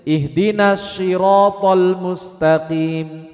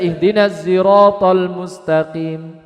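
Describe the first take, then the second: First: Siratal begins with an sh sound. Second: Siratal begins with a z sound. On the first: "Ini yang dipakai huruf apa ini kalau seperti ini? Shin, bukan sod" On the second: "Sod di sini boleh diganti hurufnya dengan huruf zain"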